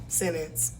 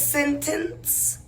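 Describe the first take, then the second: First: The word is said fast with clipped syllables. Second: The word is said carefully with full syllables. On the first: The speaker calls it wrong. "We just say it fast" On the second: The speaker calls it right. "The word is sentence"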